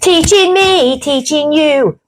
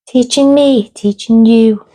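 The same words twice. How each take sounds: First: It is said in a lively, excited tone. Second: It is said in a flat, downcast tone.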